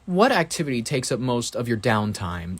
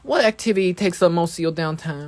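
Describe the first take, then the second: First: Every word is carefully and crisply enunciated. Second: The words are relaxed, with looser enunciation.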